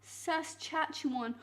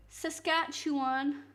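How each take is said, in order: First: "Saskatchewan" with ch for the k, sas-CHAT-chewan; CH mispronunciation. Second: "Saskatchewan" with a hard k after the first s; hard C pronunciation. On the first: Streamer testing the viewer's wrong reading, "Saskatchewan" with a ch. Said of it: "Why wouldn't cat be pronounced chat". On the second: Streamer showing the viewer the right sound, "Saskatchewan" with a hard k. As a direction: draw out "Saskatchewan" slowly, sounding sas-KATCH. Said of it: "it would be C". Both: Shown as a demonstration.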